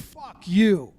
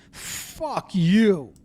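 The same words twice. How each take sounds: First: Mildly angry, drawn on YOU; retold angry curse. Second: Imitated venomous curse, stretched out; nasty, upset curse. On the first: Orioles manager to the Yankees pitcher, mildly angry. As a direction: imitate an upset player cursing. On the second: Orioles manager cursing the pitcher, with emphatic nastiness. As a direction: spit out the insult like an upset manager. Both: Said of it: "with a lot of na".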